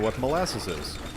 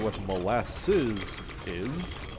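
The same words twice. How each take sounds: First: The phrase is said quickly and rushed. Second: The phrase is said at a normal pace.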